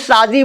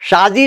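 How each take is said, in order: First: The word is said the plain village way. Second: The word is said the careful Urdu way. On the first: This is how a village person would say it. "गांव का आदमी शादी बोलेगा" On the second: A village person could not say it this way. "शादी नहीं बोल सकता"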